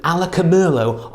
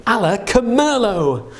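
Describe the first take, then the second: First: Said in the usual way. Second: Higher, slow showman spell; kids party magician. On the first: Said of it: "we'll try the magic word". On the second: Pretend. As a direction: announce it like a stage magician. Casting a spell for wine.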